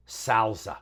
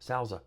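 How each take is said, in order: First: "salsa" said SAL-zuh, the a as in cat; "salsa" with a short cat-like a, then zuh; salsa, flat a. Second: "Salsa" said SOWL-zuh, the a opened toward ow; "Salsa" with a round broad a, like sowl-zuh. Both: Shown as a demonstration. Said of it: "It's pronounced salsa".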